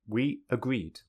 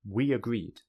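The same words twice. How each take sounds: First: The two words are said separately. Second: A y sound joins the two words. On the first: "without linking" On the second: "with linking"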